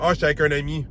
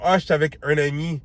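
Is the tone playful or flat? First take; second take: flat; playful. First: It is said in a flat, straight tone. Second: It is said in a playful, teasing tone.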